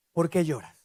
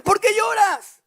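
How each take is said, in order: First: Low, soft mock husband asking ¿Por qué lloras?; a dull, lowered ¿Por qué lloras? from an oblivious husband; husband mumbling ¿Por qué lloras? low and soft; clueless husband. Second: High, loud mock-baffled ¿Por qué lloras?; puzzled husband. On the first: Clueless husband voiced, wife upset. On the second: Elcana voiced, puzzled at crying wife.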